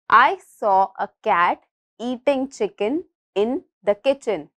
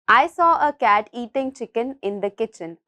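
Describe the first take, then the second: First: The sentence is spoken at a slower pace. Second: The sentence is spoken at a faster pace.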